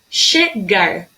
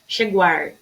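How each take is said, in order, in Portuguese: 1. O g é um g duro, simples. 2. O g é seguido de um som de w.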